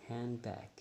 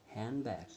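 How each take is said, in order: Both takes have the same delivery.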